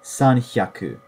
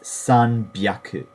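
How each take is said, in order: First: The middle consonant is an h sound. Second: The middle consonant is a b sound. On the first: The speaker calls it wrong. "That's incorrect" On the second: The speaker calls it right. "It's sanbyaku"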